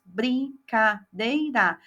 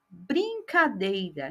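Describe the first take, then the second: First: Slow, split "Brincadeira" into its four pieces; teacher spelling out "Brincadeira" slowly; slow syllable by syllable. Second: Said in the usual way. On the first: Shown as a demonstration. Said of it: "Ele vai colorir todos os pedacinhos". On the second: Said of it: "quantos que são os pedacinhos".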